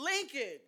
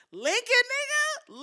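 First: Said in the usual way. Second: Loud rising disbelief on Lincoln; Lincoln, said like you can't believe it; outraged rising Lincoln; incredulous. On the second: Real, not acted. Incredulous at Trump's Lincoln claim.

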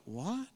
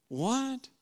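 First: Soft, rising disbelieving what; a puzzled murmur of what; stunned disciples. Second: Much higher, incredulous what; the disbelief spikes up high; shocked disbelief. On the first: Disciples hearing the news, a quiet puzzled what. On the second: Disciples can't believe the story, a high shocked what. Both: Retold or imitated. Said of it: "the other disciples are like".

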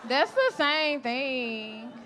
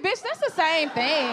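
First: Very slow, laughing, each word drawn out on "same"; slow emphatic repeat. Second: Quick sassy put-down with a twist of voice; sassy retort. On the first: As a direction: spell it out slowly, laughing. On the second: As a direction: snap it back at her. Retorting Jessica Lyft is same. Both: Retold or imitated.

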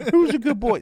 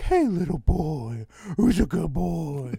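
First: Put-on much higher and louder gushing baby talk; bigger baby voice. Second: Put-on high, slow cooing baby talk to a dog; vet's baby voice. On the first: Vet gushes at the dog in a much higher, louder baby voice. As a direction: gush over the good boy even more. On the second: Vet coos to the nervous dog in a high, slow baby voice. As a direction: coo at the nervous puppy. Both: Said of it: "going in and out of baby voice talking to the dog".

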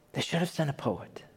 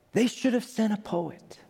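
First: Softer, fading echo of awe; soft wonder. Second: High, hushed wonder; awed hush. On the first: Her line repeated softly, a quieter awed echo. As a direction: say it under the breath. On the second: Scientist overwhelmed by the galaxy, high awed hush. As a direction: let the words fail her. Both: Retold or imitated. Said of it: "she says".

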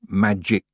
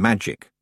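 First: MAGIC with a clearly released K at the end; hard final K. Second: Said in the usual way. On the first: A narrator's reading. Correcting herself to the fancy spelling, "magic" with a hard K. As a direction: end "magic" on a crisp, separate K. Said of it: "with a K".

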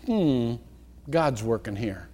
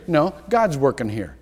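First: Soft, low, unhurried and reassured; calm trust. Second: Said in the usual way. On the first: Shown as a demonstration. Preacher shows how to meet threatening change, soft and calm. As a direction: let it settle, quiet faith. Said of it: "I want you to say".

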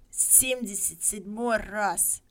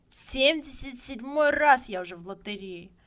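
First: Slow, lightly voiced old man; a hint of an old villager, slow; old man muttering. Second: Louder, prouder repeat; the old man raising his voice; old man insisting. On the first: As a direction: drag it out like a weary old man. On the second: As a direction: say it again with pride. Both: A narrator's reading. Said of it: "говорил он".

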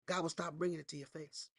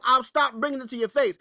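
First: Dropped to a soft, quiet hush; softer take of the warning. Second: Raised, emphatic preacher line; louder preaching take. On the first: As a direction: pull it right down, almost confiding. Same warning, dropped low. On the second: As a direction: press the warning hard. Preacher repeats the warning. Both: Acted.

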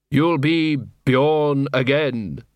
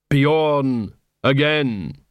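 First: Said in the usual way. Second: "[name]" spelled out very slowly, Bjorn stressed; pointed pun. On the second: Acted. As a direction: lean hard on "Bjorn" and drag "again". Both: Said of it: "It was a pun, or play on words".

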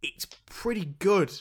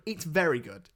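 First: Said in the usual way. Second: Very leaned on with a falling tune; correcting yourself, push "very" and let it fall; stress on very. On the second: Real, not acted. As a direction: upgrade it by pressing on "very". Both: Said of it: "Well, I say it's pretty good".

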